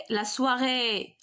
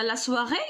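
First: سواغي with the final é stretched long; drawn-out ending on سواغي; long final vowel. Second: Said in the usual way. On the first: Shown as a demonstration. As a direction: hold the last vowel of سواغي. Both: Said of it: "كنطول في النطق".

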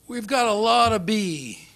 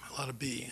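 First: Put-on slow, loud Texan accent; hammed-up Texan accent, said slow and loud. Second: Said in the usual way. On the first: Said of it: "very sort of Texan voice". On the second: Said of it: "my mind whirled".

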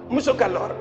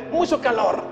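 Both takes have the same delivery.

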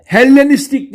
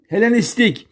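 First: Hellenistik with a long, doubled L; wrong double L. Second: Helenistik with a short, single L. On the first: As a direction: hold the L of Hellenistik: "hel-lenistik". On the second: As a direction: keep the L of Helenistik brief. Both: Shown as a demonstration. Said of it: "Tek L ile".

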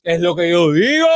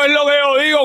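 First: Said in the usual way. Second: Much higher, gushing like a lovestruck fan; mock swooning falsetto. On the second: Mocking the woman in the clip with a high swoony voice. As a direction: coo it up high, all swoony.

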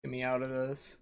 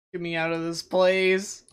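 First: Said in the usual way. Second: Louder, pleading, punch place; loud desperate plea. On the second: Real, not acted. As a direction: cry it out in frustration. Stuck, repeats plea louder.

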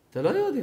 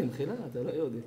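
First: Said in the usual way. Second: Softer and lower, with "מחילה" said as a pardon; hushed, apologetic repeat; quiet apologetic retake. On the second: Shown as a demonstration. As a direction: drop the voice on "אתה לא יהודי".

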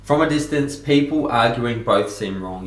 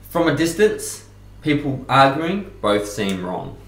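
First: People arguing, slowly and pointedly; slow repeated quote. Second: From a distance, slow and deliberate; slow quoted saying. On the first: Coach repeats the quote to viewers, slow and deliberate. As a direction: repeat it slower, savouring it. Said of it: "that's a great quote". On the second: Coach reads out a favourite quote, slow and weighty. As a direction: read the quote slowly, letting each word land. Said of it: "and the quote is". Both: Shown as a demonstration.

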